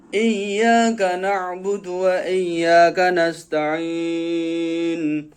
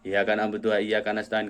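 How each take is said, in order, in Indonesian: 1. Bunyi y pada iyyaka ditahan dobel. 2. Bunyi y pada iyyaka pendek dan tunggal. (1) "yang ada tasdidnya" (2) "kayak gitu nggak ada tasdidnya"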